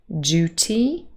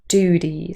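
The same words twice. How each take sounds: First: The d merges into a j sound. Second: The d goes straight into the vowel. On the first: "or duty with a j" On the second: "in General American Pronunciation with j dropping"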